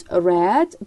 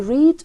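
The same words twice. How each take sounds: First: Short e vowel in read; past-tense pronunciation. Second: Long ee vowel in read; present-tense pronunciation. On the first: Teacher giving the past form, read as "red". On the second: Teacher giving the present form, read as "reed". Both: Shown as a demonstration.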